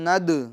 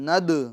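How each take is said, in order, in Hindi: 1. अंतिम d हल्की गूंज के साथ छोड़ा जाता है। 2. अंतिम d हल्की गूंज के साथ छोड़ा जाता है।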